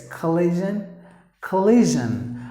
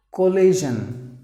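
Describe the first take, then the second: First: Collision with a reduced kuh start; corrected pronunciation. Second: Collision begun with a full KOH, slowly; common mispronunciation. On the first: Teacher correcting learners, collision with a short, unstressed kuh. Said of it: "No collision". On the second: Teacher showing what some would say, collision with a round koh start. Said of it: "Usually some would say it as". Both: Shown as a demonstration.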